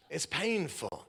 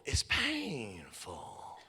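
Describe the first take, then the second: First: Said in the usual way. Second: Drawn out very slowly and softer; slow pained. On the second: Shown as a demonstration. Preacher dwelling on the hurt, very slowly. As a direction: stretch it out as if it hurts.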